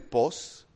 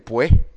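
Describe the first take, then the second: First: The vowels merge into a single o sound. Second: The final s is dropped at the end. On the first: This is how northerners say it. "dicen pos" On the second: This is how Tabasco speakers say it. "Nosotros por lo menos decimos el pue"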